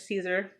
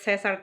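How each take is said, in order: First: The name is pronounced the English way. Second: The name is pronounced a non-English way. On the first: "kind of say it in English" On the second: "but it's Cesar Chavez"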